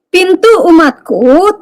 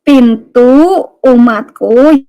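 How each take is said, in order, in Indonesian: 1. Dibaca dengan kecepatan normal. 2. Dibaca perlahan dan dengan jelas.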